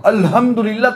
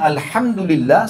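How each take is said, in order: First: "Alhamdulillah" with the wrong ha, mock-mistaken. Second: "Alhamdulillah" with the proper Arabic ha; the right ha in "Alhamdulillah"; correct Alhamdulillah. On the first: Teacher to congregation, mock-mispronouncing with the wrong ha. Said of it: "kematian buat Allah". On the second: Teacher to congregation, demonstrating the correct ha. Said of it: "segala puji bagi Allah". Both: Shown as a demonstration.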